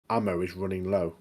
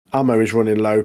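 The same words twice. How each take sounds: First: Said in the usual way. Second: A louder warning that the ammo is nearly gone; emphatic repeat. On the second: Acted. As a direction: hit "Ammo" harder the second time.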